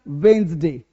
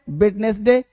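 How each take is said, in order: First: It is said with two syllables, wens-day. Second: It is said with three syllables, wed-nes-day. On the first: The speaker calls it right. "क्या बोलना है? वेंसडे" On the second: The speaker calls it wrong. "वेडनेसडे गलत है"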